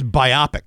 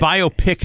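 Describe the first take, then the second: First: Biopic stressed on the middle OP; bye-OP-ic. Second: Biopic split into bio and pick. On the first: Host answering cohost on pronunciation, biopic as bye-OP-ic. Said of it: "I think it's biopic". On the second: Host rejecting a pronunciation, biopic as BIO-pick. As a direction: say biopic so it ends like picked. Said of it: "sounds like I've just picked my nose". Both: Shown as a demonstration.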